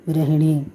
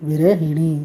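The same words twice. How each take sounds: No difference in how they are said.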